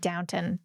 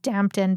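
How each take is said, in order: First: The first syllable sounds like 'down'. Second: The first syllable sounds like 'damp'. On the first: This is how the actors said it. "they kept it sounded like Downton" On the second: This is how the name is written. "it says Dampton"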